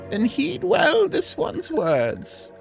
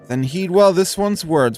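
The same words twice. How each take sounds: First: It is said in an old lady voice. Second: It is said without an old lady voice.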